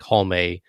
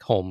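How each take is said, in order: First: The final E is sounded as its own syllable. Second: The final E is silent, one syllable only. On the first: "do you pronounce the E independently" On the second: "more like Holm, like J R"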